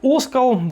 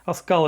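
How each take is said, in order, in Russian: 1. Ударение на первом слоге. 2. Ударение на втором слоге.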